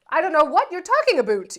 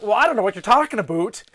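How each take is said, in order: First: Lightly faked Canadian accent, louder; fake Canadian accent. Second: Put-on faster, a Canadian accent starting to slip; slipping Canadian accent. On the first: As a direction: feign innocence in a Canadian accent. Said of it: "let her accent come out". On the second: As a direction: let the Canadian accent leak out. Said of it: "you just gotta really lean into it".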